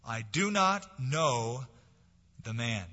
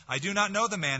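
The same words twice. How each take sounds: First: Slow, deliberate denial, each word weighed; denial with an oath. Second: Higher, forceful swearing denial; cursing denial. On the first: Peter swearing to the crowd, slow and deliberate. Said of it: "denied with an oath". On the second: Peter cursing at the bystanders, loud and angry. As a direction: spit it out as a cornered curse. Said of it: "He began to curse and swear". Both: Acted.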